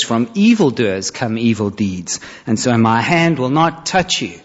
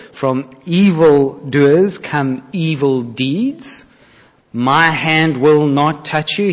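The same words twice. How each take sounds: First: Said in the usual way. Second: Slow, weighing "evildoers" and "My hand"; pointed, slow. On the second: Shown as a demonstration. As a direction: draw out the hidden barb. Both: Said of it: "Do you see the double meaning".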